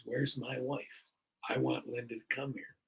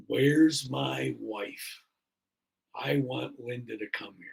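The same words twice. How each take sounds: First: Said in the usual way. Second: Slow, deliberate words of a man just waking; slow halting words. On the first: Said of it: "and he goes". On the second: Retold or imitated. Patient waking up, asking the nurse for his wife, slow and halting. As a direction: drag out where's, then say the rest evenly. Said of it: "pretty clearly says".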